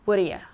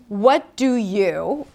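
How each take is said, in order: First: The words blend into one short reduced form. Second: Each word is pronounced fully and clearly.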